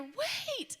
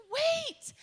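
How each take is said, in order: First: High call to stop someone. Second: Higher, louder urgent call; running after them, calling to stop. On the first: Greeter calling after the departing family, high urgent call. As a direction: call after them before they leave. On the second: Greeter running and waving after the family, loud high call. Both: Retold or imitated.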